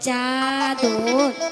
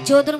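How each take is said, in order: First: The first vowel is an 'a' sound. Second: The first vowel is an 'o' sound. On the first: The speaker calls it right. "বল চাদর" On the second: The speaker calls it wrong. "চোদর বলতে হয় না"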